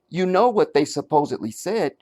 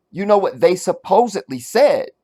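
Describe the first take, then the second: First: Gentle question. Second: Said in the usual way. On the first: Shown as a demonstration. Host showing the singer asking, not stating: gentle rising question. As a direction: ask it lightly, ending with a rise on "said". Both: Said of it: "she asks".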